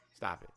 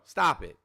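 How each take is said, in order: First: Trailing off softly; almost under breath; fading quiet. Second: Said in the usual way. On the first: Real, not acted. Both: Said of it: "repeated stop it fading".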